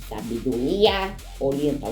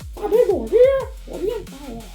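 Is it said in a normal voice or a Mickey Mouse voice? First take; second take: normal voice; Mickey Mouse. First: It is said in his normal voice. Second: It is said in a Mickey Mouse voice.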